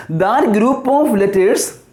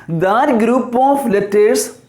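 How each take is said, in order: Both takes have the same delivery.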